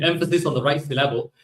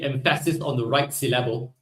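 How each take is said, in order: First: Said in the usual way. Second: "emphasis" as em-PHA-sis, "syllable" as sil-LA-ble; joking misplaced stress. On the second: Pretend. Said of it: "sorry, the emphasis on the right syllable".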